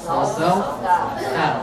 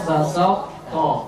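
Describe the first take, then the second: First: The final t sound is light and thin. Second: The final t sound is heavy and thick. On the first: The speaker calls it right. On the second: The speaker calls it wrong. "jangan basat ta atau basau to"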